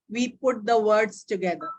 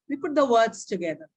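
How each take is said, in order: First: There is a pause after every word. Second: The words run together without pauses. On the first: The speaker calls it wrong. "it is not that" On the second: The speaker calls it right. "speak them like one word"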